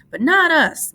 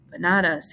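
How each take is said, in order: First: Much higher and louder, happy; Lenny happy, pitched up high and loud; happy cry. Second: Said in the usual way. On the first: A narrator's reading. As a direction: shout it with joy. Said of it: "Lenny cried happily".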